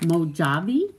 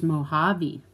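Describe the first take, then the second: First: "Mojave" with the J sounded as in jam, as a question; Mojave mispronounced. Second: "Mojave" with the J said as H; correct Mojave pronunciation. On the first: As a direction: read "Mojave" as spelled, mo-JAH-vee. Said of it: "No, but it's pronounced Mojave". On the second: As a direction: say "Mojave" as mo-HAH-vee. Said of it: "it's pronounced Mojave". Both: Shown as a demonstration.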